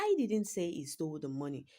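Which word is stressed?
I. The word "I" carries the main stress. Someone else said it. "I'm trying to say someone else said it"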